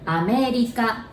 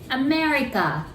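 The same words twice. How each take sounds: First: The R sounds close to an L. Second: The R is an English R sound.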